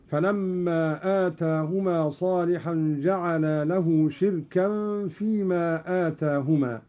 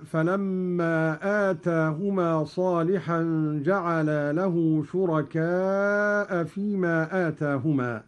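First: "شركا" as "shirkan", kasra on shin, silent ra, no hamza; Qalun reading. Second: Said in the usual way. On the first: Shown as a demonstration. Teacher recites "شركا" as "shirkan". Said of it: "بكسر الشين وإسكان الراء وتنوين الكاف". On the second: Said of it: "قوله تعالى".

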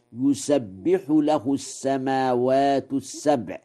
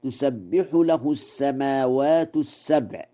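First: يسبح with a ya at the start, yusabbihu; Warsh reading. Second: تسبح with the t sound at the start, tusabbihu; standard reading. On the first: Teacher showing students Warsh's reading, ya in يسبح. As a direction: open يسبح on a clear ya sound. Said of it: "بياء التذكير". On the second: Teacher reciting the usual reading to students, clear ta in تسبح. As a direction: say تسبح beginning with ta. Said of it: "قرأ ورش". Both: Shown as a demonstration.

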